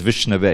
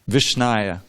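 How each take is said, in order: First: The word ends with a 'vay' sound. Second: The word ends with a 'yah' sound. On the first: The speaker is learned. The speaker calls it right. "the learned man, he says Vishnave" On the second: The speaker is ignorant. The speaker calls it wrong. "the fool, he says Vishnaya"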